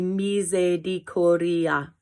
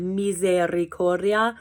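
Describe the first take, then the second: First: A quick d sound replaces the r. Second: The r is pronounced as a rolled trill. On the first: "try and do just a D sound in uh, substitution" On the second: "if you can't roll your R's"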